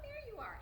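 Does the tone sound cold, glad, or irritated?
glad. It is said in a warm, glad tone. The speaker is happy the person came. The speaker calls it right. "it was about tone"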